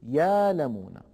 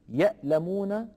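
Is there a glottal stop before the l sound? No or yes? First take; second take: no; yes. First: A long vowel replaces the glottal stop. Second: A glottal stop is heard after the first syllable. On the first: "يقول يالمون" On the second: "بدل من أن يقول يألمون"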